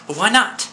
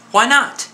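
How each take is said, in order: First: Said in the usual way. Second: Incredulous. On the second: Acted. Repeating the question, incredulous.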